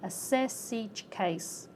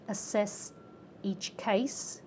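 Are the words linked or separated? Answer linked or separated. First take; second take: linked; separated. First: The final consonants link onto the next word. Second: The words are said separately, not linked. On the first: "becomes assess each case" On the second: "Assess each case becomes assess each case"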